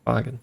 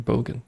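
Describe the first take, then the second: First: "Bogan" with an AH sound, as BAH-gun; open first vowel. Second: "bogan" with a long O, as BOH-gun. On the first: Streamer checking an unfamiliar word, "Bogan" said BAH-gun. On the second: Streamer checking an unfamiliar word, "bogan" said BOH-gun. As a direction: say "bogan" with the first vowel as in "bow tie". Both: Shown as a demonstration. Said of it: "is it bogan? Or bogan?".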